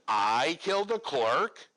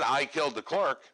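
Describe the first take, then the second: First: It is said as a shocked question. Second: It is said as a flat statement.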